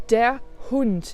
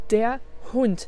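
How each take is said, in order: Both takes have the same delivery.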